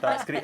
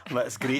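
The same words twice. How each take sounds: First: Put-on laughing into a Scottish accent; a quick Scottish accent, giggling. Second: Laughing. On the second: Real, not acted. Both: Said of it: "you have to do a Scottish accent now".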